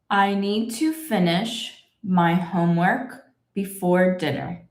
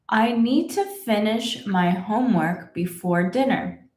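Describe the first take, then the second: First: The sentence is spoken at a slow pace. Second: The sentence is spoken at a faster pace. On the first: "I will read the whole sentence slowly" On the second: "Should we go a little faster?"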